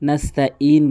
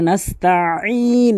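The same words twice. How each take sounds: First: The word is said lightly without pressure. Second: The word is said with forceful pressure. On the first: The speaker calls it wrong. "বলবেন না" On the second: The speaker calls it right. "এভাবে চাপ দিয়ে বলবেন"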